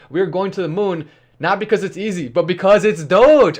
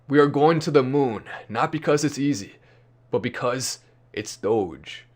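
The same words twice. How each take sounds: First: It is read out in a plain manner. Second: It is delivered in a stylized cool manner.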